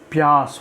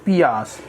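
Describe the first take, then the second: First: The p and y form one cluster. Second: The p and y are split by a vowel. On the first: The speaker calls it right. "प्यास होता है, याद रखिएगा" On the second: The speaker calls it wrong. "हम लोग कई बार कह देते हैं पियास"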